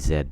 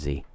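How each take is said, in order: First: The letter is pronounced 'zed'. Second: The letter is pronounced 'zee'. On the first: The speaker calls it right. "I call Z Z just because that sounds so much better" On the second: The speaker calls it wrong. "better than Z"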